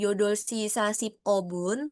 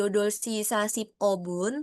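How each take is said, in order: First: The p sound is kept separate from o. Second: The p sound is kept separate from o.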